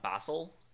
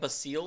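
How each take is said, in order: First: The name sounds like the herb basil. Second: The name does not sound like the herb. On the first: The speaker calls it wrong. "and not Basil, because Basil just seems dumb" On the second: The speaker calls it right. "I've decided to start calling it Basile"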